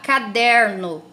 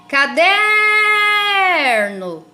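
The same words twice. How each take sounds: First: All syllables are said at normal length. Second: The syllable der is drawn out, like calling someone. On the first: "Se eu falar caderno, né, fica mais difícil" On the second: "quando eu chamo o nome dela, fica mais fácil"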